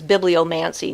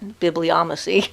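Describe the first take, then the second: First: An n sound comes before the final syllable. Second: No n sound comes before the final syllable. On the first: The speaker calls it right. "I guess it's bibliomancy" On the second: The speaker calls it wrong. "not bibliomacy"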